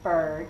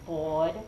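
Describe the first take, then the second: First: The R sound is clearly pronounced. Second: The R sound is dropped from the word. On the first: The speaker calls it right. "it's right behind your incisors" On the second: The speaker calls it wrong. "when you mispronounce it"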